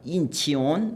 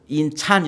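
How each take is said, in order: First: The name is said with three syllables, 'chi-on'. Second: The name is said with the vowel 'a'. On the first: "인치온 뭐 이렇게 발음할까봐 걱정을 했는데" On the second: "인찬 이렇게 발음하는 사람은 없고"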